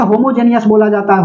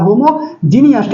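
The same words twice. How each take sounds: First: Said in the usual way. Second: homogeneous said slowly, each syllable drawn out; slow careful word. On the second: Shown as a demonstration. Teacher drilling the class on homogeneous, slow and deliberate. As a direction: spell out homogeneous slowly so the class can copy it.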